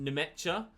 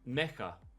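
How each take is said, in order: First: The name is said in an English way. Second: The name is said in a German way. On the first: "In English, I've seen it pronounced Nemecha" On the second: "listened to a German interview and they called him Mecha"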